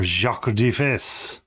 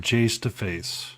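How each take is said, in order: First: The name is said in a French accent. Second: The name is said in a plain English accent.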